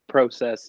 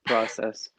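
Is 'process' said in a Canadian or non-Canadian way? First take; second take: Canadian; non-Canadian. First: It is said with a Canadian pronunciation. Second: It is said with a non-Canadian pronunciation. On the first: "Canadians say process" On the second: "instead of process"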